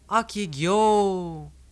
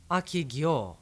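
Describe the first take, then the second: First: It is shouted as a statement to someone. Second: It is said as a simple question.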